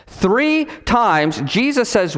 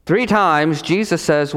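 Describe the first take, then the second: First: THREE and TIMES set apart, pitched higher; emphatic restatement. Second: Said in the usual way. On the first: Shown as a demonstration. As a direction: hit "Three times" high and deliberately.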